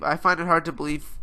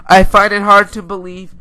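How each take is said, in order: First: Said in the usual way. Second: Louder, higher, emphatic repeat; raised voice, insisting; loud insistence. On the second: Real, not acted. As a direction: say it forcefully to drive it home. Repeats his point with emphasis.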